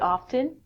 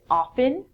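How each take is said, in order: First: The T sound is pronounced. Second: The T sound is silent. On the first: "I actually pronounce the T sound in it" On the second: "most people don't"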